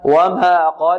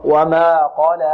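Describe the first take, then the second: First: وما قال with a strange, off alif ending; wrong alif. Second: وما قال with a clean open alif; correct قال. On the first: Teacher imitating what some students say. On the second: Teacher modelling the correct قال after the wrong one. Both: Shown as a demonstration. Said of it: "لا، خطأ".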